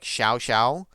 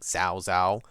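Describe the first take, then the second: First: Each word begins without a Z sound. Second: Each word begins with a Z sound. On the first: The speaker calls it right. "supposed to be closer to like Xiao" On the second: The speaker calls it wrong. "I pronounced it with a Z back then"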